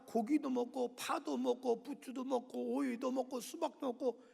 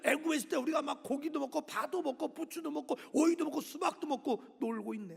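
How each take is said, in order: First: Slow, whiny list of remembered foods; grumbling Israelites. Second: Sung, sing-song parody of their complaint; sung, mocking sing-song. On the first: Retold or imitated. Israelites whining to Moses about Egypt's food, slow grumble. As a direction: drag it out like a sulky complainer. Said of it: "그런데 또 불평 원망하는 거야". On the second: Sung, God mocking the grumbling Israelites, teasing sing-song. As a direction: sing their whining back at them in mockery. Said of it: "내가 하나님이면 그럴 것 같아요".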